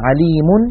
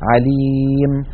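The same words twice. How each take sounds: First: The word ends with a vowel and n sound. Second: The word ends on a bare m sound. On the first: The word is read in connected speech. "بينما مثلا عليم" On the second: The reader stops on the word. "يحذفون التنوين ويقفون بالسكون"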